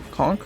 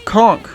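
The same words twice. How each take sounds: First: Conk? asked softly with a rising tune; questioning. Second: Conk said as a firm falling statement; flat statement. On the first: Doubting the nickname Conk, soft rising question. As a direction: check the word Conk, tune lifting, quieter. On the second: Landing on the nickname Conk, firm falling statement. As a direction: settle on Conk, tune dropping at the end. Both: Shown as a demonstration. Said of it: "Yeah, Conk".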